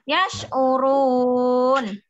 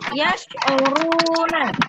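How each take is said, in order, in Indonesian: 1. Kata ini berakhir pada bunyi n. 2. Kata ini berakhir dengan vokal setelah n. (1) "setelah ada tanda wakaf ya, jadi dibaca yas'urun" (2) "Kita baca sebelum ada fatkahnya"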